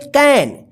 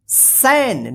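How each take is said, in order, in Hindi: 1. इस शब्द की शुरुआत K ध्वनि से होती है। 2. इस शब्द की शुरुआत S ध्वनि से होती है। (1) "इसको पढ़ेंगे कैन" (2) "इसको क्या पढ़ेंगे सैन, नहीं गलत हो जाएगा"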